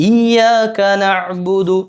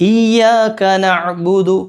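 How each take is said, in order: The two takes are said the same way.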